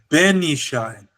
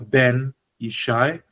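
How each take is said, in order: First: The pitch on Ben goes up. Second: The pitch on Ben stays flat. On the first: It marks the son as belonging to Ishai. The speaker calls it right. "The tone goes up" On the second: It simply says son plus Ishai. The speaker calls it wrong. "this Ben is flat"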